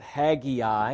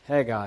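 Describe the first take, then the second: First: The name is said with an extra syllable. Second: The name is said without the extra syllable.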